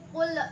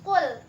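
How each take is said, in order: First: The final l is bounced with an echo. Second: The final l is held plain without bouncing. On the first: The speaker calls it wrong. "jangan dipantulkan kayak gini ... nggak boleh qul" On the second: The speaker calls it right. "harus qul"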